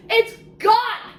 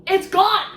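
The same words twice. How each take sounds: First: Much higher, stressing gone; even more dramatic. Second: Higher and louder, announcing it; dramatic reveal. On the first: Reviewer repeating the twist, pitched up for shock. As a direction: push it up for shock. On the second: Reviewer revealing the missing knife, higher and louder. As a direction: land the twist for the audience. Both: Acted.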